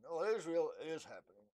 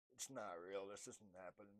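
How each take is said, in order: First: "it" and "is" held long and leaned on; stress on IS. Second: Hushed, disbelieving murmur; quiet denial. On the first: Realizing it is happening, stressing that it is real. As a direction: land hard on "is" as it sinks in. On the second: Realizing it is happening, quietly in denial. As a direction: whisper it to yourself in disbelief. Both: Retold or imitated. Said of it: "Yeah, I'm crazy".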